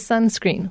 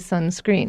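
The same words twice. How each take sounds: First: The stress is on the first syllable. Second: The stress is on the second syllable. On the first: The speaker calls it right. "we still would say sunscreen" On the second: The speaker calls it wrong. "We wouldn't say sunscreen"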